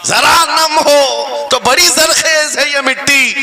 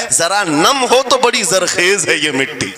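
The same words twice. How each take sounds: First: High, slow, ringing verse recital; impassioned poetic declamation; declaimed verse. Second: Said in the usual way. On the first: Real, not acted. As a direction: proclaim the line to the whole crowd, drawn out. Same verse repeated as declamation.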